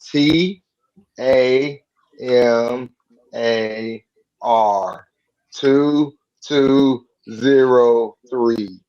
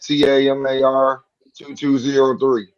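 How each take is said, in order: First: It is said slowly, letter by letter. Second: It is said at a normal, quick pace.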